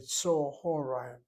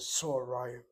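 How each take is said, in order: First: An extra short vowel breaks up the first syllable. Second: The first syllable closes, with no added vowel. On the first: This is how people actually say it today. The speaker calls it right. "They'll say Tsohorayim" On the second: This is an older form nobody uses now. The speaker calls it wrong. "No Israeli says Tsorayim"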